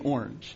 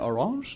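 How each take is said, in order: First: It is pronounced the English way. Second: It is pronounced the French way. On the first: "I'm saying orange" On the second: "so I'm not saying orange"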